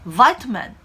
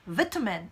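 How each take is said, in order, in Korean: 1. 미국 억양으로 말합니다. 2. 영국 억양으로 말합니다. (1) "미국 발음 기준으로는 그렇습니다" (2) "영국 발음에서는요. vitamin 이렇게 발음해요"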